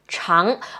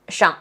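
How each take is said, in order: First: The syllable is said with a rising pitch. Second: The syllable is said light, short and toneless. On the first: "the rising tone" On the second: "the neutral tone, like really light and short"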